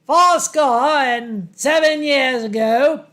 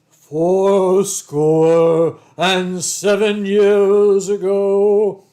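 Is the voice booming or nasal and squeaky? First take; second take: nasal; booming. First: The voice is high, nasal and squeaky. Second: The voice is deep, booming and commanding. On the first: This is how the voice really sounded. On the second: This is how people imagine the voice.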